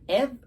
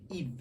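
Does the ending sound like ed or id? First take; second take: ed; id. First: The ending is said with an e vowel. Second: The ending is said with an i vowel. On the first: The speaker calls it wrong. "Ed? No" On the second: The speaker calls it right.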